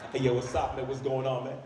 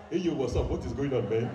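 First: Casual fake American-accent greeting; put-on American accent. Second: Put-on full African accent on the greeting; proud African accent. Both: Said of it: "I am now proud of my African accent".

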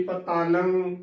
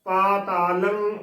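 First: ਪਤਾਲੰ run together as one word with a short ਪ; ਪਤਾਲੰ said quickly and joined, the ਪ clipped short; wrong pronunciation. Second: ਪਾ ਤਾ ਲੰ as three separate syllables, long ਪਾ; ਪਾ ਤਾ ਲੰ split cleanly with the kanna on ਪਾ held long; correct Gurbani pronunciation. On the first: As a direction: drop the kanna and blur it into ਪਤਾਲੰ. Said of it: "ਨਾ ਕਿ ਪਤਾਲੰ". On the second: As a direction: say ਪਾ, then ਤਾ, then ਲੰ, each one distinct. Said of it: "ਪਾ ਤਾ ਲੰ ਉਚਾਰਨ ਕਰਨਾ ਹੈ". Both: Shown as a demonstration.

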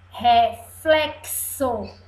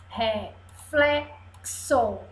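First: Slow, joined-up "Reflexo"; slow reading aloud. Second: "reflexo" split into re, fle, xo; syllable by syllable. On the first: Teacher reads little words to class, slow "Reflexo". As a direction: read "Reflexo" out carefully and slowly. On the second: Teacher reads little words to class, "reflexo" in pieces. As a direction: pause inside "reflexo" after re and fle. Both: Shown as a demonstration. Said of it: "Vamos ler as palavrinhas?".

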